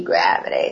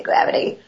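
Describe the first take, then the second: First: Said in the usual way. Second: Whispered echo of the word; whispered aside explaining why tubes should stay upside down. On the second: Real, not acted. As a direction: breathe gravity out with no voice. Repeated, then whispered.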